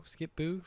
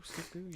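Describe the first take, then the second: First: Skip-Boo? asked with a rising, unsure tune; Skip-Boo? lifted high at the end as a guess; questioning rise. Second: Skip-Boo? said softly to herself; Skip-Boo? dropped to a murmur; quiet repeat. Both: Shown as a demonstration. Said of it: "what is it?".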